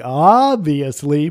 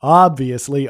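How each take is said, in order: First: Obviously dragged out for emphasis; slow, emphatic obviously; drawn out slowly. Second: Said in the usual way. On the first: Real, not acted. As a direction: stretch obviously slowly, each syllable long. Repeats word, second drawn out.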